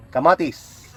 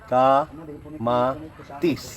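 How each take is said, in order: First: Said in the usual way. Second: Slow drawn-out repeat. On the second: Shown as a demonstration. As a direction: stretch every syllable of Kamatis very slowly. (mabagal na pagbigkas ng Kamatis) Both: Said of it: "Una, palithin".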